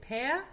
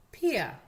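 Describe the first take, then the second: First: "Pea" said as pe-a, higher pitch; "ea" diphthong drill. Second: "Pia" said as pi-a, loud; "ia" diphthong drill. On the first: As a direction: say "Pea" with e gliding into schwa. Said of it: "que son el E A". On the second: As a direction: say "Pia" with i gliding into schwa. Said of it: "y el I A". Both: Shown as a demonstration.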